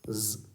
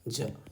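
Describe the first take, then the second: First: The consonant is a buzzing 'z' sound. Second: The consonant is a 'j' sound. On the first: The speaker calls it right. "ये जेड letter के लिए उच्चारण ही होगा ज" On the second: The speaker calls it wrong. "ना कि ज"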